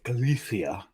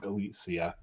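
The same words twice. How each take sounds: First: The middle consonant is lisped like 'th'. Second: The middle consonant is a plain 's' sound.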